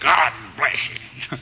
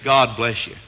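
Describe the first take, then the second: First: It is said in an angry, harsh tone. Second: It is said in a warm, sincere tone. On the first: The blessing is not really meant. The speaker calls it wrong. "Instead of God bless you" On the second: The blessing is sincerely meant. The speaker calls it right. "it ought to be God bless you"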